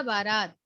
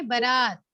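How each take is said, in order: First: बारात with a long first vowel, "baa-raat"; correct pronunciation. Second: बारात with a short first vowel, "ba-raat"; incorrect pronunciation. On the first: Teacher giving pupils the correct word, carefully pronounced बारात with long first aa. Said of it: "शुद्ध होगा बारात". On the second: Teacher showing the pupils the incorrect word, mispronounced बारात with short first a. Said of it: "अशुद्ध शब्द क्या है". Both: Shown as a demonstration.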